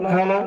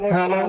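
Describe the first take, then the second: Both takes have the same delivery.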